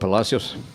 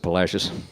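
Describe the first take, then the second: First: It is pronounced the original Spanish way. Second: It is pronounced the anglicized Texan way.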